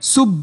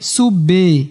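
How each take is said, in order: First: The final b stops with no echoing bounce. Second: The final b is followed by a full vowel. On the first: "আপনি যদি বাতে কলকলা না করেন, সুব বলেন, তাহলে অশুদ্ধ হবে।" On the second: "অনেকে কলকলা করতে গিয়ে সুবে এরকম করে ফেলায়"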